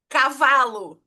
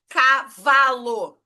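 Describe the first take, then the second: First: Said in the usual way. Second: "cavalo" drawn out slowly, each syllable opened wide. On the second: Shown as a demonstration. Teacher showing the mouth opening three times, slowly spelled out. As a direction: stretch "cavalo" into ca-va-lo, slow. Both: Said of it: "eu abri três vezes".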